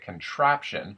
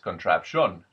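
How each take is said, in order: First: The stress is on the second-to-last syllable. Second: The stress is on a different syllable. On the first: "emphasize the, the second to last syllable. So, for example, we would say contraption" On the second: "but I've also heard footage where it's contraption"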